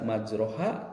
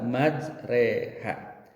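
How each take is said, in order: First: The vowel after 'r' sounds like 'o'. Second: The vowel after 'r' sounds like 'e'. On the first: The speaker calls it wrong. "jangan dibaca majroha" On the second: The speaker calls it right. "tapi dibaca majreha"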